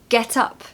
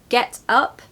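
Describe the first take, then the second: First: The two words run together as one word. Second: The two words are said apart, separately. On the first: The speaker calls it right. "it's get up" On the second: The speaker calls it wrong. "not get up"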